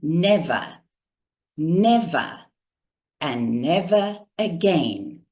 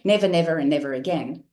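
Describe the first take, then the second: First: It is said slowly with pauses between phrases. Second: It is rushed out without pauses.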